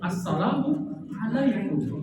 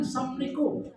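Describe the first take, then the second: First: The greeting is said with every syllable clearly. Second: The greeting is said with a syllable dropped. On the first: It wishes peace on the listener. The speaker calls it right. "Jadi yang betul apa bu?" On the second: It wishes a quick death on the listener. The speaker calls it wrong.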